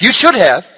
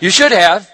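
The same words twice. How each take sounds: First: SHOULD stressed, falling firmly; a firm you SHOULD have; firm statement. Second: SHOULD stressed with a rising tune; encouraging you SHOULD have, lifting up; gentle reassurance. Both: Real, not acted. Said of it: "Not scolding you at all".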